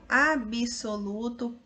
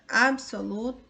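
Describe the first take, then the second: First: A vowel is inserted between the b and s. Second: No vowel is inserted between the b and s. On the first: This is an informal spoken variant. "a forma variante oral" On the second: This is the formal standard form. "a forma culta"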